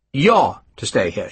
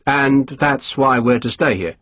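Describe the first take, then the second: First: "You're" hit first and hard, then falling; stress on you're. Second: "stay" leaned on slowly with a falling tune; slow, press the word "stay"; stress on stay. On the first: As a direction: correct him by leaning on "You're". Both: A narrator's reading.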